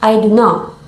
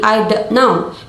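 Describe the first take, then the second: First: The T in don't is dropped. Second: The T in don't is clearly pronounced. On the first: "The T in don't is dropped" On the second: "instead of saying"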